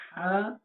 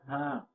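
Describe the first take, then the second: First: Drawn-out, distinctly articulated হা; first contrasting ha. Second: হা as the other Arabic h sound; second contrasting ha. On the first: Teacher contrasting two Arabic letters, first distinct হা. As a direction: stretch the first হা, setting its h apart. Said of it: "এই হা আর এই হার মধ্যে পার্থক্য করে". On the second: Teacher contrasting two Arabic letters, second distinct হা. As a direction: set this হা apart from its twin letter. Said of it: "এটা হা আর এটা হা". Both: Shown as a demonstration.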